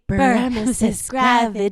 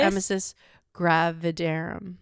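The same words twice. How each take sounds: First: It is said like a witch casting a spell. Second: It is said in her normal voice.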